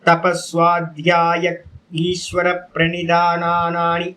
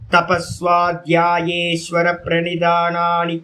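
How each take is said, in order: First: The words are said separately, one by one. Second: The words are run together into one.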